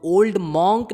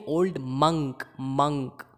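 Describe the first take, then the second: First: old मॉन्क loud, monk as MAWNK; rounded "aw" in the मॉन्क of old मॉन्क; wrong pronunciation. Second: old मंक with monk as MUNK; short "uh" in मंक, like monkey; correct pronunciation. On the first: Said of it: "old मॉन्क नहीं". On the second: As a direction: say मंक to rhyme with sunk. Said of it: "नहीं". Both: Shown as a demonstration.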